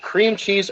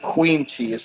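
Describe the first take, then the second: First: The first word sounds like cream. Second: The first word sounds like queen. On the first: "You c- pronounce it cream cheese" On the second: "or queen cheese, like Dave pronounces it"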